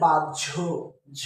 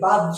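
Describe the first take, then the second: First: The middle consonant is pronounced as j then jh. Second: The middle consonant is pronounced as an h. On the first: The speaker calls it right. "এটা হচ্ছে বাহ্য ঝ" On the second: The speaker calls it wrong. "আমরা অনেকে কি বলি বাহ্য, না বাহ্য না"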